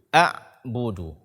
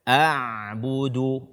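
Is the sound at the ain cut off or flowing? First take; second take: cut off; flowing. First: The sound is abruptly held at the ain. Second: The sound keeps flowing through the ain. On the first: The speaker calls it wrong. "Tidak boleh kita membacanya" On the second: The speaker calls it right. "suara tetap mengalir"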